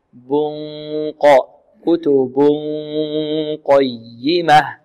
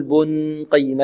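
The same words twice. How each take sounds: First: Slow "بن قيمة", a long hum set back at the ق; hidden noon before ق. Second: "بن قيمة" mispronounced with a plain noon before the ق; faulty noon before ق. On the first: Teacher corrects the mistake, hidden noon in "بن قيمة". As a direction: hold the nasal hum ready for a heavy ق in "بن قيمة". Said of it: "لا نقول بن قيمة، لا". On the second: Teacher shows what not to say, faulty noon in "بن قيمة". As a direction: sound the noon in "بن قيمة" without moving back toward ق. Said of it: "لا نقول". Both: Shown as a demonstration.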